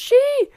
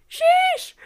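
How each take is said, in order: First: The word ends on the vowel, no 'sh'. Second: The word ends with an 'sh' sound. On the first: "they don't say the SH at the end, so it's just shee!" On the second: "people yell, sheesh!"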